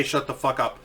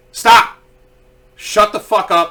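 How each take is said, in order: First: Said in the usual way. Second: Louder, sharp mock yell of stop; imagined yell. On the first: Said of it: "I didn't say". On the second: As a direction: bark it at the screaming women in your head. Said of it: "I didn't say "Shut the fuck up," but I wanted to".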